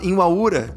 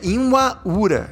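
First: The word is said quickly and run together. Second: The word is said slowly and carefully.

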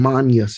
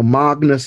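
First: It is pronounced the Catholic Latin way. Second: It is pronounced the classical Latin way. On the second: "So magnus in classical Latin"

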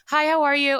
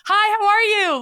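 First: The greeting sounds flat and routine. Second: The greeting sounds warm and interested. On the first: The question is asked out of habit. The speaker calls it wrong. "It's not" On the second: The speaker really wants to know. The speaker calls it right. "Like genuinely ask someone a question"

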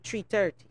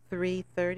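First: The th sounds are replaced, Crucian style. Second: The th sounds are clearly pronounced.

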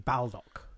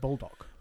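First: It starts like 'bald' and ends in 'ock'. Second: It sounds just like the word 'bulldog'. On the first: This is the strictly correct form, spelled out. "if you were being, you know, correct, it would be Baldock" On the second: This is the form people actually use. "So they call it Bulldog"

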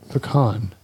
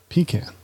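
First: The word has the Southern pronunciation. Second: The word has the Northern pronunciation. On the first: The speaker calls it right. "it's pecan" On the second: The speaker calls it wrong. "northerners would say pecan"

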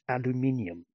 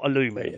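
First: It is said with five syllables, aluminium. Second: It is said with four syllables, aluminum. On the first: This is the form the maker uses, even in America. The speaker calls it right. "Even the Americans, I believe, you know, the Apple Watch is aluminium" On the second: This is the form the maker does not use. The speaker calls it wrong. "not aluminium"

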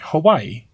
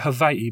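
First: The middle consonant is pronounced like a w. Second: The middle consonant is pronounced like a v.

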